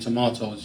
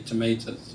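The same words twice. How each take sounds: First: It is said with a British pronunciation. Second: It is said with an American pronunciation. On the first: This is how people in the UK say it. "in the U K we say tomatoes" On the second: This is how the American audience says it. "you say tomatoes"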